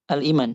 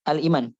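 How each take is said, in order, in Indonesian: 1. Vokal panjang dibaca pendek. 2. Vokal panjang dibaca pendek.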